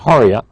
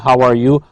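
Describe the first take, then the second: First: The three words are run together into one. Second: The three words are said fully and separately.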